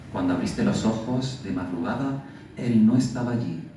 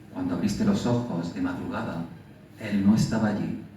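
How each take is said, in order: The two takes are said the same way.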